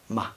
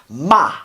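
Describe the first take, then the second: First: The syllable is quiet with no tone. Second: The pitch is sharp and forceful, like bam. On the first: "that quiet tone that I was telling you about, the no tone" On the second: "the fourth tone is like bam"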